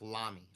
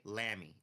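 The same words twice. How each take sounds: First: Lamy with an open ah, "LAH-mee"; "Lamy" said the other way, as "LAH-mee"; alternative pronunciation. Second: Lamy with a short flat a, "LAM-ee"; "Lamy" said the American way, as "LAM-ee"; American pronunciation. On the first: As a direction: say Lamy to rhyme with "mommy". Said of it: "I've also heard it pronounced". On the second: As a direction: say Lamy to rhyme with "whammy". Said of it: "I don't know how to pronounce it". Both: Shown as a demonstration.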